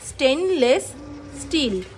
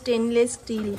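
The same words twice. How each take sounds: First: The two s sounds are said cleanly and separately. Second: The two s sounds slip and blur together. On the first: The speaker calls it right. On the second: The speaker calls it wrong.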